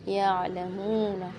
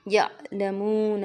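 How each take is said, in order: First: The first syllable flows smoothly without a jerk. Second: The first syllable is cut off with a jerk. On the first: The speaker calls it right. "इससे सिंपल पढ़ना है, नॉर्मल रह के पढ़ना है" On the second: The speaker calls it wrong. "इसमें झटका दे देते हैं, या लमून ऐसे करके पढ़ लेते हैं"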